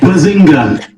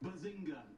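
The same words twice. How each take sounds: First: It is said loudly. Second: It is said quietly.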